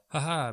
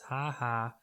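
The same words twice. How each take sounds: First: The laugh sounds nervous and uneasy. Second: The laugh sounds dismissive and mocking.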